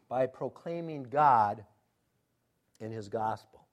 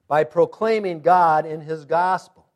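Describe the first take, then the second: First: Said in the usual way. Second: Slow, firm stress on "proclaiming God"; emphatic repetition. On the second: Real, not acted. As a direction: drive home "proclaiming God" with more volume. Same point repeated with force.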